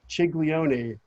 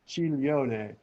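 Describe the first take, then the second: First: The g before the l is sounded. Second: The g before the l is silent. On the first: The speaker calls it wrong. "It's not" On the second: The speaker calls it right. "the diphthong G L forms the L L like million"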